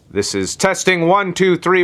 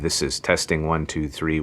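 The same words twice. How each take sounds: First: It is spoken very loudly, almost shouted. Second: It is spoken at a normal, moderate volume. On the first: "with a loud fucking voice" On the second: "with a normal voice at about vlog level"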